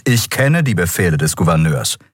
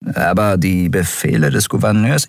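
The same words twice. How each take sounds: First: Firm interruption, falling at the end; cutting in. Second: GOUVERNEURS rising into a question; questioning objection. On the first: A narrator's reading. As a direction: cut them off with authority. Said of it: "fiel er ihr ins Wort". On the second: Acted. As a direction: object hesitantly, lifting the end on Gouverneurs.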